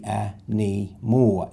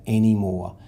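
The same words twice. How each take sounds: First: "a knee more" said slowly, syllable by syllable; split into syllables. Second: Said in the usual way. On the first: Shown as a demonstration. Teacher splitting the word slowly for the class. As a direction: break "a knee more" into slow separate parts. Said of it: "The Y will borrow the N for knee". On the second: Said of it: "blend it together with our accent".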